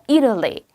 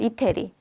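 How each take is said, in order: First: The first syllable is stressed; the rest is weak. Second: Every syllable is pronounced fully and evenly. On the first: The speaker calls it right. "앞에만 정확하게 하고 뒤에는 스무스하게 넘어가" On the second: The speaker calls it wrong. "그건 한국식 발음이에요"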